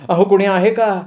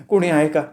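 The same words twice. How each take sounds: First: Higher, more insistent call for help. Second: Mild first call for help, not yet raised. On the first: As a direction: raise the pitch and call out to anyone around. (मदतीसाठी चढ्या सुरात मारलेली हाक) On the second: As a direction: call out tentatively for anyone around. (मदतीसाठी हलकी पहिली हाक) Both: A narrator's reading. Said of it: "ती सारखी मोठमोठ्यानं ओरडायला लागली".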